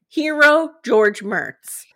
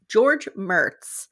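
First: Slow, grand, higher and louder "Hero George Mertz"; proclaimed hero. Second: Said in the usual way. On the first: Shown as a demonstration. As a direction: announce "Hero" like a title, drawn out. Crowns the judge a hero.

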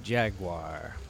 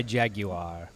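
First: "Jaguar" as two syllables, "JAG-war"; low, soft "JAG-war"; plain American pronunciation. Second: "Jaguar" in three syllables, "JAG-yoo-ar"; slow, lower British "JAG-yoo-ar"; British pronunciation. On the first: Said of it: "like Matt Gorley would say it". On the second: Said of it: "That's the British way to say it". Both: Shown as a demonstration.

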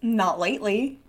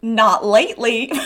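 First: Put-on softly said with a slight southern accent; understated southern accent, rising at the end. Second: Put-on heavy southern accent, falling at the end; hammed-up southern accent; stronger southern accent. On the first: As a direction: slip lightly into a southern accent. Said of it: "a southern accent there". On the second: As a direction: lean further into a southern accent. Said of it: "lean even more into a southern accent".

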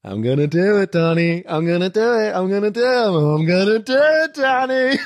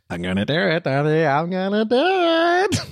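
First: Gespielter amerikanischer Akzent, immer lauter; American accent. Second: Amerikanischer Akzent, steigend und gedehnt; American accent. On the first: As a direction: amerikanischer Akzent, triumphierend steigend. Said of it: "Plötzlich ist so ein amerikanischer Akzent". (amerikanischer Akzent, siegessicher) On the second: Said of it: "diesen schönen Moment mit Mitch". (amerikanischer Akzent) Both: Retold or imitated.

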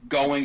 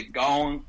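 First: Said in the usual way. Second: "going" with the final G dropped. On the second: Shown as a demonstration. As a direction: end "going" on a plain N sound. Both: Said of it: "you start dropping the G".

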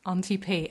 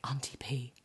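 First: Said in the usual way. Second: Low, voiceless imitation of a child's whisper. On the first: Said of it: "And he goes". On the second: Small boy telling a parent a secret, whispered. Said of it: "he whispered in my ear".

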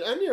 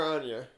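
First: Anya with a short A as in "can"; Anya pronounced AN-ya. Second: Anya with a broad A as in "father"; Anya pronounced AHN-ya. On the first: Asking how the actress says Anya, as AN-ya. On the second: Offering the other way to say Anya, as AHN-ya. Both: Shown as a demonstration. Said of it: "Is it Anya or Anya?".

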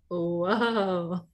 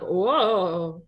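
First: Old man with a bad hip, catching himself; startled creaky old man whoa. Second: Put-on old man voice. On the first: Shown as a demonstration. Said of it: "if I were old and had a raggedy hip". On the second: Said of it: "Was that your old man voice?".

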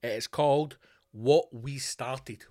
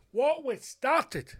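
First: Said in the usual way. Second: What We Started drawn out high and slow; slow emphatic title. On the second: Shown as a demonstration. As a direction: spell out What We Started slowly, pitched up. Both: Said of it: "so don't get it wrong".

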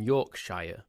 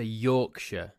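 First: Yorkshire ending in a full "shyer"; American pronunciation. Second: Yorkshire with a reduced "shuh" ending; British pronunciation. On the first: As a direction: say Yorkshire as YORK-SHY-er. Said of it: "decision to say Yorkshire". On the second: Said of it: "that's the way we say it in England". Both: Shown as a demonstration.

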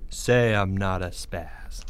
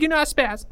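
First: Slow, low, controlled order; calm demand. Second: High, panicked concession; terrified plea. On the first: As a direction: dictate it slowly and coolly. Greg calmly demands it of Porge. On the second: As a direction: blurt it out in a frightened squeal. Porge gives in, terrified. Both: Acted.

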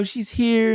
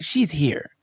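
First: A hint of cheesy psychic, pitched higher; lightly mock a clairvoyant's announcement. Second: Said in the usual way. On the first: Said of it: "wasn't like a cheesy clairvoyant thing". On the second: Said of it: "it was like".

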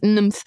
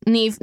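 First: "Nymph" in place of Niamh, short vowel and mf ending; mispronounced name. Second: Said in the usual way. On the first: Retold or imitated. Friend retelling Italian man's mistake, Niamh said as "Nymph". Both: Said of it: "he was calling it Niamh Nymph".

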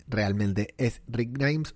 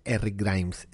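First: "realmente es Rick Grimes" drawn out slowly, leaning on "Grimes"; slow, savoring "Rick Grimes"; slow emphatic insistence. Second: Said in the usual way. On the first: Shown as a demonstration. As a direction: stretch each word, stress "Grimes".

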